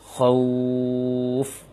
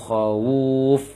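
First: The w runs straight into the f. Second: An extra u vowel is added before the f. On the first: The speaker calls it right. "Tapi langsung khauf" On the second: The speaker calls it wrong. "menambah waw dhammah"

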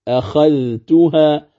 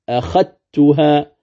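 First: The dh sound is pronounced before the t. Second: The dh sound merges into a doubled t. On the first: "لو قرأنا عند حفص كيف يقرأها؟" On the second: "لا وجود لها في النطق، إذا يقرأها القارئ عند ورش"

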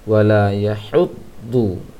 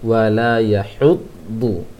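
Both takes have the same delivery.

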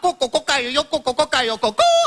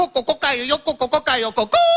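First: It is spoken in Cantonese pronunciation. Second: It is spoken in Cantonese pronunciation.

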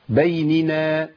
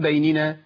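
First: Each n sound is given its full vowel. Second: The n sounds are rushed and merged. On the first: The speaker calls it right. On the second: The speaker calls it wrong.

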